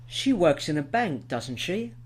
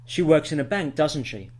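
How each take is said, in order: First: "doesn't she" lifting upward at the end; rising tag intonation. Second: "doesn't she" drops at the end; falling tag intonation. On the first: Teacher shows learners a polite check, "doesn't she" rising. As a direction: tag "doesn't she?" rises like a real question. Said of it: "you heard a rising intonation there". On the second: Teacher demonstrates inviting agreement, "doesn't she" falling. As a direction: close "doesn't she" downward, sure of the answer. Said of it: "if the intonation falls". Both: Shown as a demonstration.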